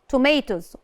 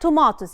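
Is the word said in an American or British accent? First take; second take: American; British. First: The word is said with an American accent. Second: The word is said with a British accent. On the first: "American accent" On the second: "British accent"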